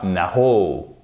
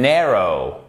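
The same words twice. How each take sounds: First: French-style NARROW, weight on the ending; wrong final stress. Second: English NARROW, strong NAR and light ending; stress on first syllable. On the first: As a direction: NARROW stressed on the last syllable. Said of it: "et pas narrow". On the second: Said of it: "Ici, c'est la première". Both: Shown as a demonstration.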